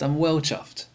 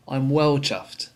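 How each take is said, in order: First: Said in the usual way. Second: Well leaned on and slowed; slow, falling weight on well in I'm well chuffed; stress on well. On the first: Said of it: "for example". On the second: Shown as a demonstration. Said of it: "notice there the word well".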